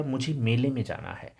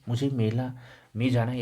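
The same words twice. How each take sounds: First: मेले pushed with falling tune; मेले said firmly, correct form; stress on मेले. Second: Said in the usual way. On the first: Shown as a demonstration. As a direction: lean on the word मेले as the fix. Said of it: "इसका शुद्ध वाक्य होगा". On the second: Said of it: "यह अशुद्ध है".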